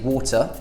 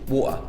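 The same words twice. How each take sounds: First: The T in the middle is clearly pronounced. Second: The T in the middle is left out entirely. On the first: "we either pronounce the T, like water, that's how I would say it personally" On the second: "or you just don't pronounce it at all"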